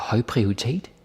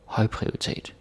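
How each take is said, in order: First: The stress falls late, with the tone rising. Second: The stress falls on the first part, høj. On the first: The speaker calls it wrong. "Don't say like uh, høj prioritet... so the tone goes up" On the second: The speaker calls it right. "you put the stress on høj... That's how it is"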